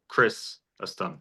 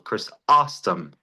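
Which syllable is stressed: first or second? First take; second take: first; second. First: The stress is on the first syllable. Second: The stress is on the second syllable. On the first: "the stressor's on the first syllable" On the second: "that puts the stressor on the second syllable"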